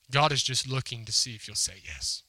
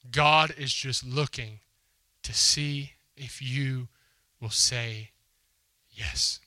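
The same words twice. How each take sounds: First: Said in the usual way. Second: Very slow and deliberate, fading to a breath on yes; slow emphatic repeat. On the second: Real, not acted. Preacher to his congregation, slow and deliberate. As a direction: drag each word out for weight.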